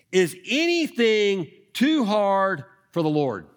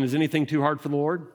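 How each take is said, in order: First: Slow, weighty, higher question leaning on too; preacher slowing down to let the key question land; slow emphatic question. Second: Fast, plain asking of the line; preacher putting the question to the listeners; quick direct question. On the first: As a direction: let "too" hang, each word placed slowly. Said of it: "I'm gonna keep this up here". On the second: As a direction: toss the question straight at them, quickly. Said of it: "let me ask you a question". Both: Shown as a demonstration.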